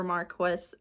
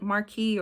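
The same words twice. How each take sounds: First: Marquess said as MAR-kwess; English-style pronunciation. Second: Marquis said as mar-KEE; French-style pronunciation. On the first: Reader unsure how to say the title, Marquess as MAR-kwess. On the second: Reader unsure how to say the title, Marquis as mar-KEE. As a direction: say Marquis with an "ee" ending, silent s. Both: Shown as a demonstration. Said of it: "I don't know how you say this".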